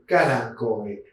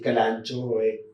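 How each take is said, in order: First: The 'ch' is said as a 'k' sound. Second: The 'ch' is said as a 'ch' sound. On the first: The speaker calls it right. "La C H es una K" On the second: The speaker calls it wrong. "Muchas veces dicen"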